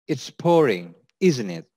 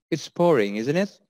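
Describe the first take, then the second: First: "isn't it" falling, no confirmation sought; falling tag intonation. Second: "isn't it" climbing high at the end; rising tag intonation. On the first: Teacher shows small-talk tone about rain, falling tag. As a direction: let "isn't it" go down. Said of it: "is slightly going down". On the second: Teacher shows needing listener's confirmation about rain, rising tag. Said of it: "if the tone is rising". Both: Shown as a demonstration.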